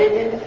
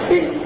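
First: The word starts with a vowel before b. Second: The word starts directly with the b sound. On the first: The speaker calls it right. "بدل ابن" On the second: The speaker calls it wrong. "يقولون بدل ابن بن"

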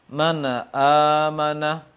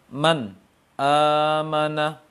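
First: The n runs straight into the next vowel. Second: A break separates the n from the next word. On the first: "Yang salahnya apa?" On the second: "Atau terpisah"

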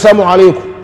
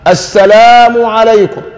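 First: The opening article is dropped and the words slurred. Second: Every sound of the greeting is said fully. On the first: The greeting is said carelessly and loses its meaning. The speaker calls it wrong. "هو لا يرعى السلام اهتماما" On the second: The greeting is said properly and earns reward. The speaker calls it right. "فانطقه بما ذكر في القرآن"

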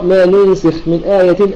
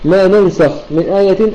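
First: The verb is said with u and i vowels. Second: The verb is said with a and a vowels. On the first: "يقرأ بضم وكسر" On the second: "فلك أن تعرف أن قراءة البقية بالضد، وهو الفتح"

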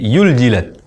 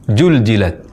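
First: The word starts with a y sound. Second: The word starts with a j sound. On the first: "mengucapkan za menjadi ya" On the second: "mengubah huruf zai menjadi huruf jim dan tidak seharusnya mengucapkan demikian"

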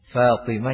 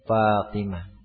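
First: The name begins with an f sound. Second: The name begins with a p sound. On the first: The speaker calls it right. "Huruf fa biasanya jadi huruf p" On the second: The speaker calls it wrong. "Huruf fa biasanya jadi huruf p. Fatimah jadi Fatimah"

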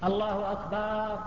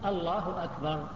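First: The vowel after the b is drawn out long. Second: The vowel after the b is kept short. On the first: The word becomes a plural meaning drums. The speaker calls it wrong. "لا يمد الباء، فلا يقول الله أكبر، لا يجوز هذا" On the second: It means God is greatest. The speaker calls it right. "من غير أن يمد الهمزة في أول أو الباء"

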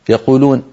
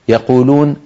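Both takes have the same delivery.

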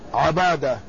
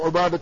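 First: The first vowel is an open 'a' sound. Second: The first vowel is a rounded 'u' sound. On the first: "فالأول بفتح العين المهملة وتخفيف الموحدة" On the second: "والثاني بضم العين"

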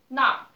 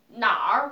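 First: The syllable has a sharply falling fourth tone. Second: The syllable has a tone that is not falling. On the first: It means 'there'. "Und hier ist Viertertöne. Nar bedeutet dort" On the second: It means 'where'. "Aber Nar bedeutet wo"

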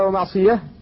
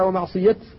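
First: The word ends with an h sound. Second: The word ends with a t sound. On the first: The speaker calls it wrong. "فلا يجوز أن تقف عليها" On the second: The speaker calls it right. "بل تقف عليها ومعصية لأن الصحابة رسموها كذلك"

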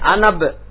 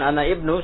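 First: The hamzah is dropped, with ana joined to b. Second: The hamzah is pronounced, with ana and ibnu separate. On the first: The speaker calls it right. "yang bagus, tapi anab" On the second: The speaker calls it wrong. "jangan ana ibnu"

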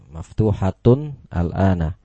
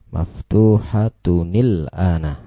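First: The two words are said without a linking vowel. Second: The words are joined with an added 'i' sound. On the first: "Tanwin bertemu dengan sukun" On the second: "Bacaannya yang betul ialah abwa buha maftuhatunil ana"

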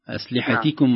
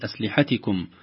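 First: The letter before the suffix is pushed strongly. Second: The letter before the suffix is not pushed. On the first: The speaker calls it right. "آخر حرف في الكلمة قبل الضمير هو يكون متكئ عليه" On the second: The speaker calls it wrong. "وليست"

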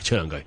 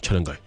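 First: It is said in a light, easygoing way. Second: It is said in a sneaky, secretive way. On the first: The speaker wants to ask a favour casually. "因為嗰件事唔想太嚴肅" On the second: The speaker wants to share juicy gossip. "通常我都係鬼鬼祟祟"

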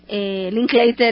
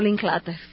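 First: The name is pronounced in an English way. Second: The name is pronounced in a German way. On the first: The person is North American. The speaker calls it right. "se pronuncia Linklater" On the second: The person is assumed to be German. The speaker calls it wrong. "y no Linklater. Pensé que era alemán"

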